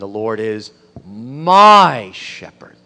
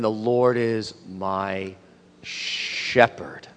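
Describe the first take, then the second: First: The stress is on "my". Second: The stress is on "shepherd".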